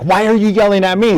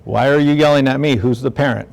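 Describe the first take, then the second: First: Put-on a parent snapping back at the kid; mock parent yelling back, pitch up; mock frustrated parent. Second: Lightly voiced teen, mid pitch, fading down; the child talking back, mild and sulky; a hint of the kid answering back; mock sassy kid. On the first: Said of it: "then you're like". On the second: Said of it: "They're like".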